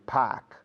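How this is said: It is said in a Boston accent. "In Boston"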